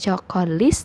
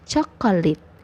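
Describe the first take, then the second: First: The final consonant is an s sound. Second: The final consonant is a t sound. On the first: The speaker calls it wrong. "bukannya chocolis" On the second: The speaker calls it right. "tapi jadinya chocolate"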